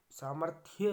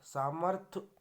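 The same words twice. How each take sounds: First: Said in the usual way. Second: सामर्थ्य said louder as 'saamarth'; final 'ya' dropped. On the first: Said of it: "होता है". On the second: Shown as a demonstration. Teacher showing a mistake, सामर्थ्य cut to 'saamarth'. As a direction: stop सामर्थ्य at 'th', lifted at the end. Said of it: "ये गलत है".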